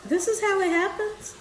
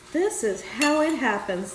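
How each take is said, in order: First: Pitched high with a rising end; playful high lilt; high sing-song. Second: Said in the usual way. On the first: Shown as a demonstration. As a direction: lift it up high and let it rise.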